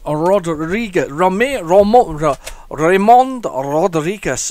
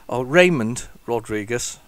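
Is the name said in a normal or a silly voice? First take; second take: silly; normal. First: The name is said in a silly put-on voice. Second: The name is said in a normal voice.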